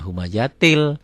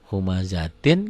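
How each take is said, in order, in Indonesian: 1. Kata ini diakhiri dengan bunyi l. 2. Kata ini diakhiri dengan bunyi n.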